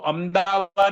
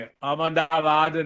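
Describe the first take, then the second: First: The m is said without a following vowel. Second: The m is said with a full vowel. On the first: The speaker calls it wrong. "अहमदाबाद नहीं कहेंगे" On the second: The speaker calls it right. "म पूर्ण अहमदाबाद"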